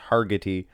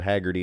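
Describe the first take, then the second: First: The name is said like Hargitay. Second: The name is said like Haggerty. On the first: The speaker calls it right. "it's Hargitay" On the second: The speaker calls it wrong. "I apologize, not Haggerty"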